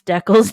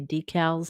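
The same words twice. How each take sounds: First: It is said the Canadian way. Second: It is said the US way.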